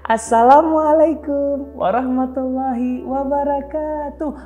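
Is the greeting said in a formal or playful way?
playful. It is said in a playful, childlike way.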